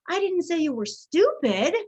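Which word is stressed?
stupid. The stress falls on the word stupid. Something else was said about the listener. "I said you were something else"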